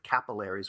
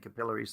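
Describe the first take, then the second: First: It is said with a non-British pronunciation. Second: It is said with a British pronunciation. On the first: The speaker calls it wrong. "which is just so unwieldy and horrible" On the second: The speaker calls it right. "the proper English pronunciation"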